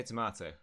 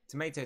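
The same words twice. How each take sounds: First: "tomato" with AH in the middle; to-MAH-to. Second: "Tomato" with AY in the middle; to-MAY-to. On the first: Player comparing two pronunciations, "tomato" as tuh-MAH-to. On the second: Player comparing two pronunciations, "Tomato" as tuh-MAY-to. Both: Shown as a demonstration. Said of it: "like, potato, potato".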